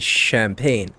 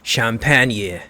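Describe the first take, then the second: First: It is pronounced with an English pronunciation. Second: It is pronounced with a French pronunciation.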